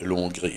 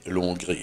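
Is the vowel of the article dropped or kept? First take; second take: dropped; dropped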